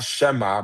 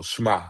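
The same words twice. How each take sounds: First: "shema" said as two syllables, she-MA; "shema" with a full vowel after sh, she-ma; the not-quite-right "shema", sheh-mah; wrong two-syllable shema. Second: "shema" squeezed into one syllable, shmah; "shema" with no vowel between sh and m; "shema" said fast as a single beat, shmah. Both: Shown as a demonstration. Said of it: "they try to say it in one syllable".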